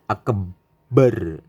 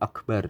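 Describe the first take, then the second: First: The b sound is doubled and held. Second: The b sound is said once, not doubled. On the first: The speaker calls it wrong. "memberikan tasydid pada pada ba lafadz akbar" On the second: The speaker calls it right. "Jadi harus pas Allahu Akbar begitu"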